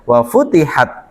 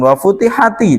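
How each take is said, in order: First: The word ends on a bare 't' consonant. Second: The word ends with an added 'i' vowel. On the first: The speaker calls it right. "aslinya dia sukun" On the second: The speaker calls it wrong. "bacanya jangan wafutihati"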